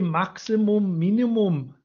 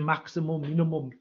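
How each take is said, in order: First: It is said with a put-on German accent. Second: It is said in the speaker's ordinary accent.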